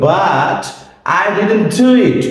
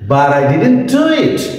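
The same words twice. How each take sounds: First: A pause after 'but' keeps a clear t sound. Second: 'But I' links smoothly with a soft d sound. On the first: "আমরা যদি থেমে বলি" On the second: "তখন হালকা ডি, soft ডি"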